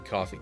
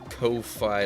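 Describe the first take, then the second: First: The first vowel is a short 'aw' sound. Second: The first vowel is a long 'oh' sound. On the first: "I think it's supposed to be coffee" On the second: "like lo-fi"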